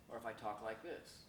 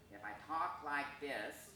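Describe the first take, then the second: First: Said in the usual way. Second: Slow, altered voice color; slower demonstration voice; slow changed voice. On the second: Shown as a demonstration. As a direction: show a different color to the voice.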